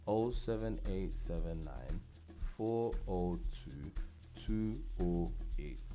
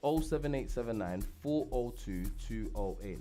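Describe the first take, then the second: First: The number is said slowly. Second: The number is said at normal speed.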